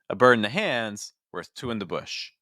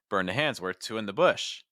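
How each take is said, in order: First: The first phrase is higher, the second lower. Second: The first phrase is lower, the second higher. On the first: "I put that first group at a higher pitch, ... my second thought group, I may want to put at a lower register" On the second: "Or you could switch it. ... maybe I'll start lower"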